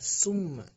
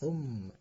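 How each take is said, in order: First: The word begins with an s sound. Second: The word begins with a th sound. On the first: The speaker calls it wrong. "jangan tertukar dengan summa" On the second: The speaker calls it right. "tapi harus thumma"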